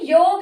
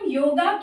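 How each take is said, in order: First: The word ends on the consonant with no vowel. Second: The word ends with an added final 'a' vowel. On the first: The speaker calls it right. "ये भी योग है" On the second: The speaker calls it wrong. "तो इसको हम योगा क्यों बोल रहे हैं"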